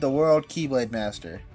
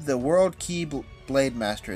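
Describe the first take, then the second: First: The name is said fast, words run together. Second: The name is said at normal speed, words separate.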